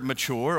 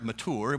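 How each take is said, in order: First: The word is said in a plain, casual way. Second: The word is said in a posh, careful way.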